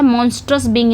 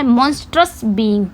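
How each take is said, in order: First: Said in the usual way. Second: Each word drawn out slowly for students to write; slow dictation. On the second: Shown as a demonstration. Teacher dictating the meaning to her class, very slow. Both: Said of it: "इसका मतलब क्या होता है".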